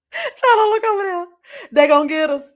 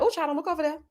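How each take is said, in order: First: High, loud, hammed-up panicked cry; mock panic. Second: Soft, higher hushed mock fear; mock nervous warning. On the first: To her friend in a car of strangers, hammed-up panic. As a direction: wail it like they're coming for you. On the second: To her friend in strangers' car, soft mock fear. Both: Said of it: "I'm like".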